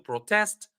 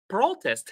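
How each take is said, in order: First: The stress is on the second syllable. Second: The stress is on the first syllable. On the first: It is used as a verb. "If it is a verb, we put the stress on the second syllable" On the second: It is used as a noun. "if it is a noun, we put the stress on the first syllable"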